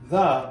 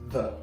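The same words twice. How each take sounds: First: The word is said fully and clearly. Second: The word is said quickly and reduced. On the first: "the becomes" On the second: "becomes the"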